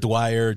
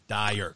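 First: The name begins with a 'dw' sound. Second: The name begins with a plain 'dy' sound. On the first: The speaker calls it wrong. "they want to pronounce the Y like a W" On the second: The speaker calls it right. "You throw an R on the end of it, you're done. Dyer, that's it"

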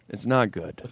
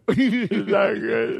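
First: It is said fairly calmly. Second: It is said dramatically, close to crying.

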